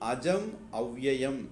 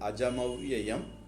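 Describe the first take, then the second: First: The two words are said as separate words. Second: The two words run together as one word.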